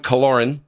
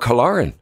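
First: The name is said in a plain American accent. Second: The name is said in an Irish accent.

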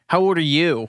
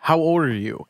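First: It is said in Cecile's bratty voice. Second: It is said in a plain, normal voice.

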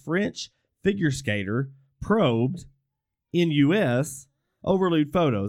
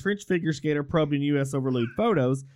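First: It is read with dramatic pauses inserted. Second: It is read straight through without pauses.

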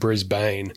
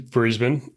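First: The name is said the American way. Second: The name is said the Australian way. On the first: "the stereotypical way that Americans pronounce it" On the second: "But yeah, it is Brisbane"

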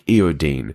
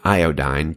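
First: The last syllable sounds like 'deen'. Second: The last syllable sounds like 'dine'. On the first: This is the British way of saying it. "he pronounces it like iodine with an E" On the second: This is the American way of saying it. "he's saying iodine to us Americans"

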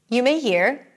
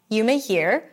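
The two takes are said the same way.

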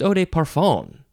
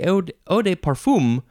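First: The last syllable sounds like 'fan'. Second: The last syllable sounds like 'fum'. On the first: The speaker calls it right. "but it's eau de parfum" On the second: The speaker calls it wrong. "I would want to say eau de parfum"

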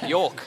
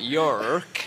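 First: The R is dropped, with no hard R. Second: The R is pronounced strongly, a hard R. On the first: The speaker calls it right. "It's York" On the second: The speaker calls it wrong. "Those hard R's. It's not York"

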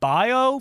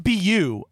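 First: The name sounds like 'bio'. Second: The name sounds like 'byoo'. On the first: The speaker calls it wrong. "I've been saying like bio for years" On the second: The speaker calls it right. "I think it's Biu"

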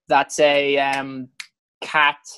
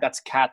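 First: It is said with a hesitant pause before cat. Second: It is said smoothly without hesitation.

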